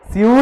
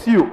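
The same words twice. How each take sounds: First: Loud, high, dragged "स्यू" as the mistake; mock the pupils' long "स्यू"; wrong pronunciation. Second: Short "स्यू" with a y-glide; crisp one-syllable "स्यू"; corrected pronunciation. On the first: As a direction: stretch "स्यू" out, raised and loud. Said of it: "स्यू नहीं रे". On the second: Shown as a demonstration. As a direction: model "स्यू" as a quick "syoo". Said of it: "नहीं रे। स्यू".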